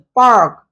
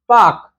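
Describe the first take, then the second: First: The r sound is strongly pronounced. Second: The r sound is not pronounced.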